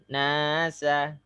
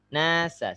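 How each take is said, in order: First: The vowel is dragged out for too long. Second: The vowel is held for a short, measured time. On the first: The speaker calls it wrong. "Jangan nasa" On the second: The speaker calls it right. "Nasa sudah"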